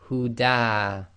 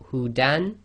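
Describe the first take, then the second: First: The word ends with a lengthened vowel, no n. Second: The word ends with a short vowel and n. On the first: "it becomes huda, too long" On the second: "you've got hudan"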